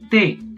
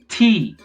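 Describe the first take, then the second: First: The T is released softly without a burst of air. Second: The T is released with a strong burst of air. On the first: "In Spanish, that doesn't happen" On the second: "In English, P and T are explosive"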